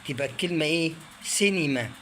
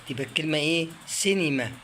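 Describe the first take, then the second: The two takes are said the same way.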